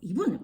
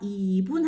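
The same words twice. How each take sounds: First: The two syllables are said short and quick. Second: The syllables are stretched over two full beats. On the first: The speaker calls it wrong. "이 분 이렇게 얘기하는 있거든요. 근데 이게 아니에요" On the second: The speaker calls it right. "그 박자의 길이에 맞춰서"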